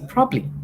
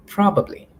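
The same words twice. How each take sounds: First: Probably squeezed to probly, the middle syllable dropped; the clipped probly, two beats only; wrong probably. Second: Probably in three beats, pro-ba-bly; correct probably. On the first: Teacher to students, showing the common slip: probly. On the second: Teacher to students, giving the correct probably in full. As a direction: say every syllable of probably clearly. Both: Shown as a demonstration. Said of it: "the actual pronunciation is".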